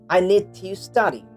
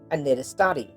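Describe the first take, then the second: First: 'To' is said with a full vowel. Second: 'To' is reduced to a weak 'ta' sound.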